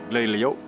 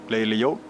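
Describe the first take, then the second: The two takes are said the same way.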